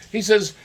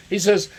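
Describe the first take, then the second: No difference in how they are said.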